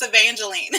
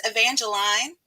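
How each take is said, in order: First: "Evangeline" ending "leen", as she means it; corrected pronunciation. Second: "Evangeline" ending in a long "line" sound; slipped pronunciation. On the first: Streamer correcting her character's name to the "leen" ending. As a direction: land "Evangeline" on a clean "leen". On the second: Streamer admitting her character's name slips out, ending "line". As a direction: let "Evangeline" end like "line". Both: Shown as a demonstration. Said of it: "That's how you say Evangeline".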